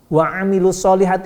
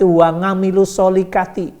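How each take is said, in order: First: 'Amilu' starts with a throat sound, 'solihati' with h. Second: 'Amilu' starts with ng, 'solihati' with rough kh.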